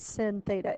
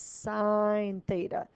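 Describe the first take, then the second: First: The first word rhymes with 'win'. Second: The first word rhymes with 'line'. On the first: The speaker calls it wrong. "don't say sin theta" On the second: The speaker calls it right. "It's sine theta"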